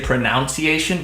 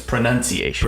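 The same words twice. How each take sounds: First: The second syllable sounds like 'noun'. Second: The second syllable sounds like 'nun'. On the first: The speaker calls it wrong. "people say pronunciation" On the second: The speaker calls it right. "There's no O there"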